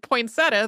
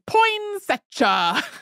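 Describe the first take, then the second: First: The word is said in a plain, everyday way. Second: The word is said in an exaggerated, stylized way. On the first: This is the speaker's own usual pronunciation. "the way I've always said it" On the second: This imitates a radio performer's delivery. "in this, like, very stylized way"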